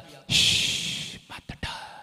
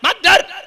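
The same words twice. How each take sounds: First: It is said quietly and gently. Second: It is shouted loudly. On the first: God speaks gently from within. The speaker calls it right. "परमेश्वर बहुत धीमी आवाज में बात करता है" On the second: A mistaken idea of how God calls out. The speaker calls it wrong. "शायद परमेश्वर ऐसे चिल्लाता है"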